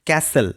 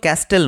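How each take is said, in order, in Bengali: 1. t ধ্বনিটি নীরব। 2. t ধ্বনিটি উচ্চারিত হয়। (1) "এর উচ্চারণ হবে ক্যাসেল" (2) "এটা কিন্তু ক্যাস্টেল নয়"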